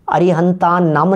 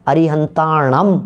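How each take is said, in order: First: अरिहंता नम, broken apart with plain न; wrong split. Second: अरिहंताणम said slowly as one word, with retroflex ण; अरिहंताणम joined, ण curled back; correct form. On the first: Preacher slowly shows listeners the wrong अरिहंता नम. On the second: Preacher slowly gives listeners the correct अरिहंताणम. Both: Shown as a demonstration. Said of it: "नहीं".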